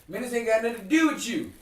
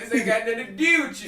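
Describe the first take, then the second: First: Put-on light Baltimore accent on "do" and "you"; higher-pitched retold quote with a Baltimore twang; a touch of Baltimore in the vowels. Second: Loud, higher, laughing Baltimore twang; thick mock Baltimore accent through laughter; exaggerated Baltimore accent. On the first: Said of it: "I hear how you said dude". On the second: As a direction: overdo the Baltimore "do" and "you". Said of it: "Sounds like Canada".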